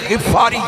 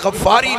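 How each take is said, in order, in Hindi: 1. पहला स्वर 'i' की ध्वनि है। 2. पहला स्वर 'a' की ध्वनि है। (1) "गिफारी है, गईन दे थले जेर है" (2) "ये गफारी नहीं"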